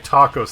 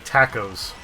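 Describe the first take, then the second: First: The word is said in a plain, usual way. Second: The word is said with a northern-sounding accent. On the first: This is the proper way to say it. The speaker calls it right. "the people who don't say tacos" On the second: Some people say it this way. The speaker calls it wrong. "they say tacos. ... one of those northern accents"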